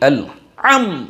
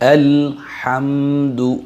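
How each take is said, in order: First: The h sound is dropped entirely. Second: The h sound is soft and breathy. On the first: The speaker calls it wrong. "এভাবে উচ্চারণ করছে" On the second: The speaker calls it right. "ভদ্রভাবে আদায় করব আমরা"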